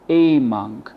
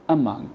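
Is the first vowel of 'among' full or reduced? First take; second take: full; reduced. First: The first vowel is a full vowel. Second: The first vowel is a weak schwa. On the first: The speaker calls it wrong. "We don't say among. No" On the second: The speaker calls it right. "So we replaced the A with a schwa"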